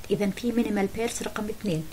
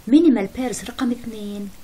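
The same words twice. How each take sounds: First: Said in the usual way. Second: "minimal pairs رقم اثنين" said louder and slow, "minimal" hit hardest; slow, loud repeat to drive it home; emphatic repeat. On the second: Shown as a demonstration. Teacher repeats the item name.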